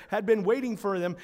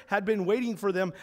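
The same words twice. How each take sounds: The two takes are said the same way.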